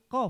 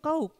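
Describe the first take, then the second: First: The vowel is a short 'o'. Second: The vowel is an 'ow' glide. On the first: The speaker calls it right. "Padahal pengucapannya bukan kauk, tetapi kof" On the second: The speaker calls it wrong. "Kalau orang kebanyakan mengatakan itu kauk"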